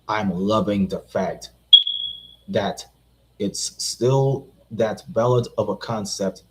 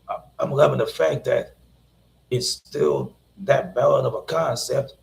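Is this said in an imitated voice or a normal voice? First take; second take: normal; imitated. First: It is read in the speaker's own normal voice. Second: It is said in a put-on imitated voice.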